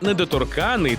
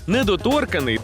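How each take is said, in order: First: The stress is on the syllable ka. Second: The stress is on the syllable tor. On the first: A legal status of immunity. "А недоторканий – то правовий статус" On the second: Someone who dislikes being touched. "Недоторканий – то, наприклад, людина, яка не любить, аби її чіпали"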